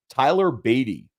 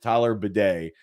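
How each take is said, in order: First: The surname does not sound like 'bidet'. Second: The surname sounds like the word 'bidet'. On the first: The speaker calls it wrong. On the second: The speaker calls it right.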